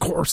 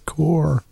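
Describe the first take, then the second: First: The word ends with an audible s sound. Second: The word ends without any s sound. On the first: The speaker calls it wrong. "It's a corpse" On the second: The speaker calls it right. "No, it's a core"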